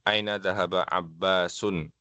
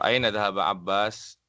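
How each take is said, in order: First: The last word ends with a full -un ending. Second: The last word ends bare, with no ending. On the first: This is the full form by the rules. "Tetap dibaca seperti itu" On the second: This is the casual conversational form. "tidak harus dibaca lengkap"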